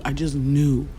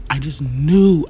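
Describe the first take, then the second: First: Said in the usual way. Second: Louder, slower insistence on knew; mother recalling her certainty, louder and slower; emphatic. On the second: Real, not acted. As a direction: hammer home that you knew.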